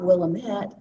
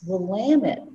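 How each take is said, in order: First: The ending does not rhyme with 'damn it'. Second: The ending rhymes with 'damn it'. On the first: The speaker calls it wrong. "it's not Willamette" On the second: The speaker calls it right. "it's Willamette, damn it. It rhymed"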